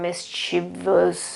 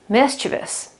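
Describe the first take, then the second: First: The stress falls on a later syllable. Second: The stress falls on the first syllable. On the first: The speaker calls it wrong. "you shouldn't pronounce it like" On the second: The speaker calls it right. "The accent is on the first syllable"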